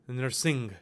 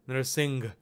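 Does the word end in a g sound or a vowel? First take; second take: g sound; g sound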